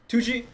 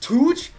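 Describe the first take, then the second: First: The name is said with two syllables. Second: The name is said with one syllable. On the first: The speaker calls it wrong. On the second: The speaker calls it right.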